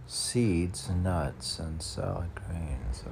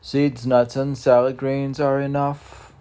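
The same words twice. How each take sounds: First: Said in the usual way. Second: Higher, louder pronouncement; proclaiming. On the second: Acted. Laying down his diet rule, loud and high. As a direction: announce it as a rule.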